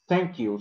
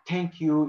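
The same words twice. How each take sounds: First: The first sound is a soft th. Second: The first sound is a plain t. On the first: The speaker calls it right. "but it is thank you" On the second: The speaker calls it wrong. "It is not thank you"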